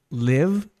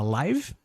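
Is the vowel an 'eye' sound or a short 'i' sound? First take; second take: short i; eye sound. First: The vowel is a short, lax 'i' sound. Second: The vowel is a gliding 'eye' sound. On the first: It means to reside somewhere. "que é morar" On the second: It means happening in real time. "que é ao vivo"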